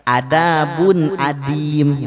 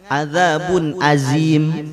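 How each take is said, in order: First: The consonant is a thick, heavy dha sound. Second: The consonant is a light, buzzing zai sound. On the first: The speaker calls it right. "Ngucapinnya juga sama" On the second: The speaker calls it wrong. "Enggak juga biasanya keseringan azabun azim"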